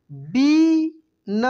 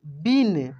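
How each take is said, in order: First: बीन stretched very slowly with a long ई; drawn out. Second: Said in the usual way. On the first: Shown as a demonstration. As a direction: hold the vowel of बीन long. (बीन को खींचकर बोलिए) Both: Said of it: "इसके बाद देखेंगे यहाँ पे".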